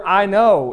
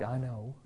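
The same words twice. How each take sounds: First: I know said louder and firm; emphatic I know. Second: I know dropped low and almost inaudible; dismissive I know. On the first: Preacher demonstrating the emphatic I know, louder. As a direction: press hard on I know. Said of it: "The word "I know" is emphatic here". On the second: Preacher showing the dismissive teenage I know, very soft. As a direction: toss off I know like a bored teen. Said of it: "It's not like". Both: Shown as a demonstration.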